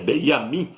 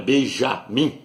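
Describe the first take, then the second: First: The name is said without a J sound. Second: The name is said with a J sound. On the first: The speaker calls it right. "no hebraico não tem a letra J" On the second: The speaker calls it wrong. "não é Benjamim"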